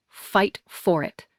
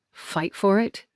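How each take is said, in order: First: Slow "Fight for it", falling at the end; firm urging. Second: "Fight for it" rising as a question; doubting echo. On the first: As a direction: draw out "Fight for it" as a parting instruction. Grandmother's urging in the letter. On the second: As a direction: repeat "Fight for it" questioningly, ending on a rise. Doubting echo of the letter's words. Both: A narrator's reading.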